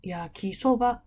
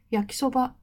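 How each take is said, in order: First: 焼きそば split in two pitch levels, slowed; half-and-half accent. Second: 焼きそば said flat and high on every mora; 焼きそば with no pitch drop, all moras high; all-high accent. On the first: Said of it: "半分ずつになったり". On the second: A teacher showing a wrong accent to students: 焼きそば all high. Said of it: "高い、高い、高い、高いになったり". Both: Shown as a demonstration.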